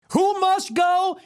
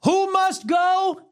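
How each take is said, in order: First: High loud rally chant; chanting shout. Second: Chanting shout. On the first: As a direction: chant it to the crowd. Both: Acted.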